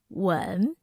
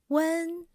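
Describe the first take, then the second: First: The pitch dips low and deep. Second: The pitch stays high and level. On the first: "The third tone has a deep and low pitch" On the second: "The first tone has the highest pitch"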